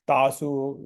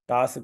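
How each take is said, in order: First: The final u vowel is said fully. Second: The final u vowel is barely heard. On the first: The speaker calls it wrong. "ये बहुत common mistake है" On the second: The speaker calls it right. "सोच लीजिए कि ये यू की मात्रा है ही नहीं"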